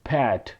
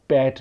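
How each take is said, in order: First: The consonants are said with a strong puff of air. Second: The consonants are said without a puff of air. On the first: The speaker calls it right. "पी की sound की बजाय फे की" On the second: The speaker calls it wrong. "आप पैट नहीं कहेंगे"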